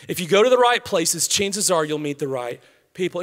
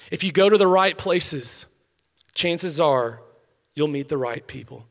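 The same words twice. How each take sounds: First: Said in the usual way. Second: Slow, with a pause before each phrase; spaced, deliberate repetition; paused emphasis. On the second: Shown as a demonstration. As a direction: let every phrase land on its own. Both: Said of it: "repeats the line".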